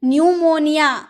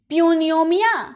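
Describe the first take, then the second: First: The word begins without a p sound. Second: The word begins with a p sound. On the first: The speaker calls it right. "पी silent होता है" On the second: The speaker calls it wrong. "प्यूनियोमिया नहीं"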